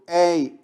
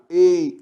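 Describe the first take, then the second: First: The diphthong starts with an open vowel. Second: The diphthong starts with a closed vowel. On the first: "Papéis tem o ditongo aberto" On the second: "Falei tem o ditongo fechado"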